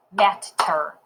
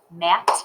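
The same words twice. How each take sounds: First: Said in the usual way. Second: "Matter" broken as mat, long pause, ter; clapped syllables. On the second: Shown as a demonstration. Teacher clapping Matter first, split into syllables. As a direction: clap "Matter" out in two separate beats. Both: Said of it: "Let's clap it first".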